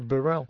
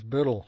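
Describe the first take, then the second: First: The name is said with an American pronunciation. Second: The name is said with a Scottish pronunciation. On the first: This is how the name is said in North America. "here it's [name]" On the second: This is how the name is said in its home country. "The Scottish pronunciation of my name is Burrell"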